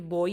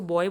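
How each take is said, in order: First: बॉय said as 'bo-ee'; corrected बॉय with both vowels heard; 'oi' diphthong. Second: Put-on बॉय said the everyday way, as 'boy' with a y ending; casual everyday बॉय; normal pronunciation. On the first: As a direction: end बॉय on a clear long ee. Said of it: "ये बॉय ही होता है". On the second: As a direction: say बॉय quickly with a short y ending. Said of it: "तो आप normally तो कैसे बोलोगे इसको". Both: Shown as a demonstration.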